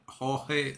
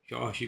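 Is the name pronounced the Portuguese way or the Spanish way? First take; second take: Spanish; Portuguese. First: The name is said with Spanish pronunciation. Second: The name is said with Portuguese pronunciation. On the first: The speaker calls it wrong. "not Jorge like Spanish" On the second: The speaker calls it right. "that's the way they pronounce it in Portuguese"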